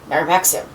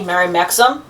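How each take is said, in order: First: The last syllable of Maxim sounds like 'im'. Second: The last syllable of Maxim sounds like 'um'. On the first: The speaker calls it right. "I try to say Mary Maxim" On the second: The speaker calls it wrong. "automatic thing to say"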